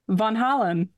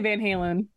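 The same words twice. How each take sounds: First: It is said in the original Dutch way. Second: It is said with a Midwestern American accent.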